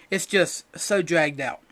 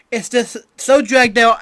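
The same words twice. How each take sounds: First: Tired repeat. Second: "so" leaned on, high and loud; exasperated emphasis. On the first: Repeating his complaint about the arc, slow and deflated. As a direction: let it sag, worn out by the show. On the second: Complaining about One Piece dragging, loud stress on "so". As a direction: throw up your hands on "so". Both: Shown as a demonstration.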